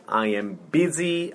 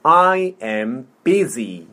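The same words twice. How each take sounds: First: Said in the usual way. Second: Slow, word by word; slow model. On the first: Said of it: "천천히". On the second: Shown as a demonstration. Teacher modelling "I am busy" for repetition, slowly. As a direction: space out each word for a learner. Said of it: "천천히. 자, 해볼게요".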